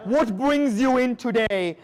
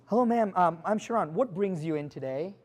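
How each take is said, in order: First: Slow, deliberate mock of the phrase; slow, scornful quote of a cliché; mocking repeat. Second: Soft, hesitant scripted greeting; a timid agent's canned hello; bad greeting example. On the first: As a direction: drag it out to show how bad it sounds. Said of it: "should be eliminated from your vocabulary". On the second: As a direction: play the weak rookie opener, softly. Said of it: "Here's what you never do". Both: Shown as a demonstration.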